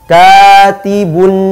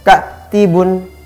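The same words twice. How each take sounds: First: The long vowel is open with breath flowing out. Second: The long vowel is held back and cut short. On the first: The speaker calls it right. "tapi harus terbuka" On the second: The speaker calls it wrong. "Tidak boleh bacanya katibun, nah, tertahan"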